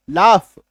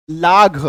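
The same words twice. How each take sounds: First: लाफ ending in a clear f sound; correct laugh pronunciation. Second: लाघ with a hard gh sound at the end; wrong gh pronunciation. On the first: Teacher giving students the correct reading of laugh. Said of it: "फ होता है". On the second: Teacher showing students the misreading of laugh. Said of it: "लेकिन यहाँ पे जीएच का उच्चारण फ होता है". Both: Shown as a demonstration.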